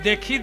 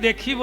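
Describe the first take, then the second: No difference in how they are said.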